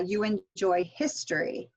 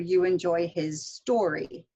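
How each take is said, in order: First: "history" as one word, stressed on its first syllable. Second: Slower, "his" light and "story" stressed. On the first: Teacher contrasting misheard sentences, first-syllable stress on "history". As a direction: hit the start of "history", let the rest run together. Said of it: "if you don't stress it correctly". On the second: Teacher contrasting misheard sentences, stress moved onto "story". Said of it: "when you get stress wrong". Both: Shown as a demonstration.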